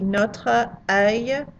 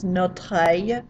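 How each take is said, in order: First: The two words are said separately. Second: The two words run together as one. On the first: "the words by themselves would be" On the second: "we kind of run them together... like one word"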